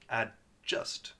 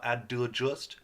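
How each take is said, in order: First: "Adjust" as AD, tiny stop, JUST; no vowel between D and J in "Adjust"; correct stopped D. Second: "adjust" said as "ad-duh-just"; wrong added vowel. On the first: Teacher correcting the mistake, D cleanly stopped. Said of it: "The D stops the sound". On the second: Teacher showing what not to say, added vowel. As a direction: put an extra UH after the D in "adjust". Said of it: "Not adjust". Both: Shown as a demonstration.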